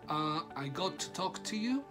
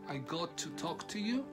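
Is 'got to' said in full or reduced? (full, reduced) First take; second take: full; full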